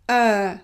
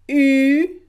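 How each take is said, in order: First: The vowel is the 'uh' sound. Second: The vowel is the rounded French 'u' sound. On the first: The speaker calls it wrong. "So it should be pronounced uh, but it's not" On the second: The speaker calls it right. "here we pronounce it as if we had only the letter U"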